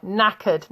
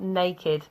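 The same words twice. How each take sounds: First: "Knackered" said clearly as NACK-erd, short a, no r; "Knackered" with a flat a, two beats; correct pronunciation. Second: Put-on "naked" said as NAY-kid, the word to avoid; "naked" as the contrasting wrong form. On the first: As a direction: model "Knackered" carefully for learners. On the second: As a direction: set "naked" apart, softer, as the mistake. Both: Shown as a demonstration. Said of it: "get the pronunciation right".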